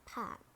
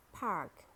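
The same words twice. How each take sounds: First: "pack" as British park, silent R; British "pack", long open ah without R; British accent. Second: "park" with a sounded American R; American "park", curl the R before the k; American accent. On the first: Teacher models park for learners, British accent. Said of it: "in British English". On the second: Teacher models park for learners, American accent. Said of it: "R in American English". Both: Shown as a demonstration.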